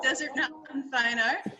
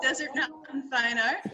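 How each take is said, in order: First: The second word sounds like 'Mountain'. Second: The second word sounds like 'Mountain'.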